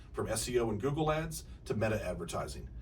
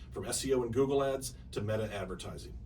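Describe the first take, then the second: The two takes are said the same way.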